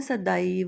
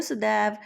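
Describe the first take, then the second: First: सदैव with ऐ opened into "a-ee": sa-da-ee-va; सदैव as a slow sa-daee-va; Sanskrit pronunciation. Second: Said in the usual way. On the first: Shown as a demonstration. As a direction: stretch सदैव, sounding the final "va". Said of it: "Sanskrit में उसको बोलना है सदैव". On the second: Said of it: "आप बोलते हैं सदैव".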